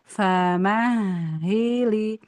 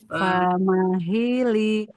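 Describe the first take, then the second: First: The consonant is lengthened and pressed, geminated. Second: The consonant is short, without gemination. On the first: "Kalau ditasdid" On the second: "Kalau enggak ditasdidkan gini"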